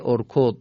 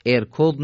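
First: ارکض begun with "o": orkod; correct damma reading. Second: ارکض begun with "e": erkod; wrong kasra reading. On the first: Teacher giving the correct word, ارکض said "orkod". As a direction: open ارکض on a short "o" sound. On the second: Teacher rejecting a misreading, ارکض said "erkod". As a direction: open ارکض on "e" instead of "o". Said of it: "ارکض نیست". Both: Shown as a demonstration.

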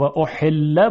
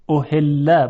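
First: احله with a tight, pressed ح; constricted pharyngeal he. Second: احله with a light glottal h; soft ordinary he. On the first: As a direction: squeeze the throat on the h of احله. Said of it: "با هی جیمی". (تلفظ احله با حای جیمی) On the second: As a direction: breathe the h of احله gently. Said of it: "با هی دو چشم". (تلفظ احله با های دو چشم) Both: Shown as a demonstration.

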